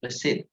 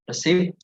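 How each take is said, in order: First: Receipt with a silent P, re-seet; right pronunciation. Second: Receipt with the P sounded; wrong pronunciation. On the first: Teacher models the right way: receipt, P silent. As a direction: say receipt with no P at all. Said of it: "but receipt". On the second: Teacher shows the wrong way: receipt with a P. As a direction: say receipt as re-ceipt with a P. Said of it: "So it's not receipt". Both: Shown as a demonstration.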